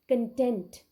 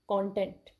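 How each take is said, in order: First: The stress is on the second syllable. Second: The stress is on the first syllable. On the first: It means satisfied or happy. "The other word is verb" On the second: It means the things contained, like in books. "That is a noun"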